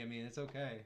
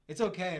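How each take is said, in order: First: Said in the usual way. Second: "okay" thrown out loud and high, falling at the end; loud mock reassurance. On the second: Shown as a demonstration. Teasing a viewer called Ben, loud mock reassurance. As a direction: call it out big to tease the chatter. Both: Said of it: "I mean, if you're that horny".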